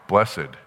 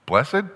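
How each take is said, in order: First: Said in the usual way. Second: Blessed? lifted high at the end like a question; Blessed? pitched up, turning it into a query; questioning rise on Blessed. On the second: Shown as a demonstration. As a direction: ask Blessed? with a rising tune, as if puzzling over it. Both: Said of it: "What does that sound like?".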